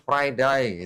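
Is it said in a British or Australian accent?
Australian. It is said in an Australian accent.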